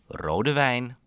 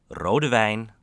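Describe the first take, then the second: No difference in how they are said.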